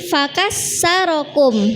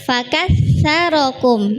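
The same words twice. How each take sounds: First: The middle consonant is an 's' sound. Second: The middle consonant is a 'th' sound. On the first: It means broke you. The speaker calls it wrong. "bacanya cepet-cepet, jadi fakatsarokum" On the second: It means multiplied you. The speaker calls it right. "pakai sa"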